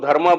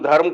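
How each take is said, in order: First: The word ends with a long 'aa' vowel. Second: The word ends without a final vowel. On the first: The speaker calls it wrong. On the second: The speaker calls it right.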